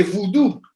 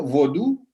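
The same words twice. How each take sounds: First: Vudú, vu-DÚ with u in the first syllable; vudú pronounced with a u sound first; vudú, the other spelling. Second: Vodú, stress on the final ú; vodú with the accent on the last u; stress on last syllable. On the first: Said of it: "en lugar de vudú". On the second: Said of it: "con acento en la última U". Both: Shown as a demonstration.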